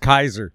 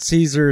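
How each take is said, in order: First: The name begins with a k sound. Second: The name begins with an s sound. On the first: The speaker calls it right. "it's Kaiser" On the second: The speaker calls it wrong. "It's not Caesar"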